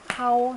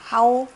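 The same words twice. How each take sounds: First: The word is said with the fourth tone. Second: The word is said with the second tone. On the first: It means a command or proclamation. "하오 사성" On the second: It simply means to call out. "이성에 있는 평성이라고 했으니"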